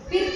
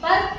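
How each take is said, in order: First: The vowel sounds like 'ee'. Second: The vowel sounds like 'uh'. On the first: The speaker calls it wrong. "ಪಿರ್ಕ್ ಅನ್ನಲ್ಲ" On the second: The speaker calls it right. "ಅ sound, ಪರ್ಕ್ ಅಂತ ಕರಿತೀವಿ"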